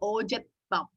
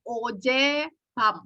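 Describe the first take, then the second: First: A t sound comes before bam. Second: There is no t sound before bam. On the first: "akan lebih gampang diucapkannya menjadi ojetbam" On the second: "Harusnya adalah ojebam"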